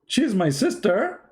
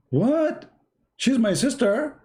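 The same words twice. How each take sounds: First: High, slow stunned question; shocked disbelief. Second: Very high, stunned question; shocked disbelief. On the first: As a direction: draw it out in disbelief. First shocked take. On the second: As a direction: squeak out the shock, slowly. Son shocked again. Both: Retold or imitated.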